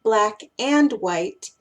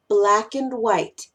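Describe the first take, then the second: First: "black and white" with a full, stressed "and", slow; weight "black", "and", "white" the same; equal emphasis. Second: "Black and white" as "black'n white", slow; reduced "and". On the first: Teacher showing what not to do, fully stressed "and". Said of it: "tienen la misma importancia". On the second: Teacher listing common pairs, slow "black'n white". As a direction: pass lightly over "and", just an n. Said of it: "No es black and white". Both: Shown as a demonstration.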